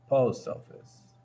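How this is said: The stress falls on the first word. The speaker calls it right. "casi siempre la sílaba tónica se ubica en la primera palabra"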